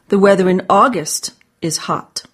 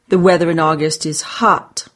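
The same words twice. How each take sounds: First: The word August is stressed. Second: The word hot is stressed. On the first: It is this month, not another month, that is hot. "Not July" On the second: The weather is hot, not rainy or chilly. "Not rainy or chilly"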